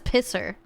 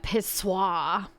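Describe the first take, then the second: First: The name ends with a plain English 'er' sound. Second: The name ends with a French 'wahr' sound. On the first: "But that says Pisser" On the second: "Technically, you would say that Pissoir"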